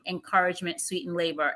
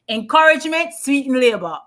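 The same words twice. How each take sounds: First: It is said in the speaker's plain accent. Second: It is said in a Jamaican accent.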